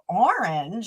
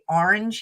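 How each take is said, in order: First: Said with an imitated Californian pronunciation. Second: Said with the speaker's home regional pronunciation. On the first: This is how people in California say it. "they go, orange" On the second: This is how people say it at home. "we say orange here"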